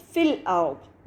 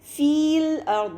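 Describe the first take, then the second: First: The vowel before the L is short. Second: The vowel before the L is long. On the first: The speaker calls it right. "बल्कि हम इसको पढ़ेंगे फ़िल अर्द" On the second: The speaker calls it wrong. "इसको हम फ़ील अर्द नहीं पढ़ेंगे"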